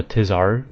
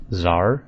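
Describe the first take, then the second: First: Tizar said "tiz-ARR"; "Tizar" in two syllables; speaker's preferred reading. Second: Zar in one syllable; "Zar" rhyming with car, no t; official pronunciation. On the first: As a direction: keep the t at the start of Tizar. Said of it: "completely ignoring the T and the H". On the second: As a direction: say Zar with a plain z start. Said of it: "are pronounced Zar". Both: Shown as a demonstration.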